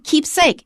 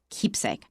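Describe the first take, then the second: First: The stress is on the second syllable. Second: The stress is on the first syllable. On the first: The speaker calls it wrong. "We don't say" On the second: The speaker calls it right.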